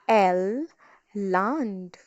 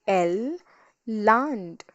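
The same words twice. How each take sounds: No difference in how they are said.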